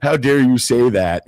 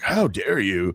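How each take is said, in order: First: Higher and louder fake indignation; hammed-up disbelief, pushed up; mock outrage. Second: A soft, half-hearted show of disbelief; mock incredulity. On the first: Interviewer Piers Morgan scolding a guest, hammed-up fake outrage. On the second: Interviewer Piers Morgan scolding a guest, mild fake incredulity. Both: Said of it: "Pierce with his kind of fake incredulity".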